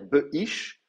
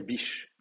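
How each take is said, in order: First: The middle consonant is kept, giving two syllables. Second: The middle consonant drops, giving one syllable. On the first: "au lieu de dire Be'ish" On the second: "vous allez dire Bish"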